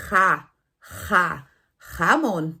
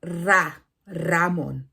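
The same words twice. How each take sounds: First: "jamón" with a rough throat J; throaty J. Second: "Ramón" with a trilled front R; tapped R. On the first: Teacher warning students off the joke: "jamón" with a throaty J. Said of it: "vocês vão dizer". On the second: Teacher showing the wrong word: "Ramón" with a rolled R. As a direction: roll the R in "Ramón", not the throat. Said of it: "E não ra, Ramón". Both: Shown as a demonstration.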